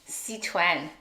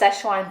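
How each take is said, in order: First: It is said the Mandarin Chinese way. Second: It is said the common English way. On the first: "in Mandarin Chinese, it's Sichuan" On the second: "A lot of people uh, um, call it Szechuan"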